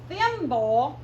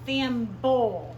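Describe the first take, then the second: First: THIMBLE said in one piece, loud, rising; word read out. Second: THIMBLE drawn out and split, THIM-BULL, loud; final syllable emphasised. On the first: Teacher reads the word to pupils, THIMBLE loud and whole. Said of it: "I'm gonna say them to you". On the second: Teacher shows the BLE sound, THIMBLE as loud THIM-BULL. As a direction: break THIMBLE in two and land on a falling BULL. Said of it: "What did that B L E sound make?". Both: Shown as a demonstration.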